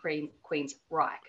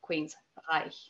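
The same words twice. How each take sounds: First: The name is said in an Australian accent. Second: The name is said with a German-style ending. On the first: "transposed into Australian then would be Queensreich" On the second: "for Germans anyway, it's Reich. So Queensreich"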